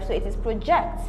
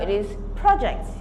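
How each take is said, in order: First: The stress is on the second syllable. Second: The stress is on the first syllable. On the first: It is used as a verb. "it is stressed on the second syllable" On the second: It is used as a noun. "if it is a noun"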